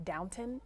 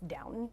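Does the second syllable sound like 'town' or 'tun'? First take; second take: tun; tun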